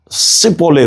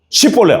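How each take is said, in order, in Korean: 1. 이 단어는 's' 소리로 시작해요. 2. 이 단어는 'sh' 소리로 시작해요. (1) "씨볼레 이러잖아요" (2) "너 발음 한번 해봐"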